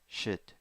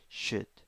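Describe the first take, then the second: Both takes have the same delivery.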